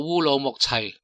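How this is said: The name is pronounced with Cantonese sounds. "粤语读做乌鲁木齐"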